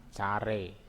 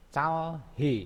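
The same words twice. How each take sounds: First: "care" with h dropped, l softened to r; slow "care", ending in re without h; as pronounced. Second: "calhe" with l and h both sounded; higher, spelled-out "calhe" keeping the h; as written. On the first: Teacher tells learners how it is read, linked "care". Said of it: "Bacanya care". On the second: Teacher shows the written form, "calhe" as spelled. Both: Shown as a demonstration.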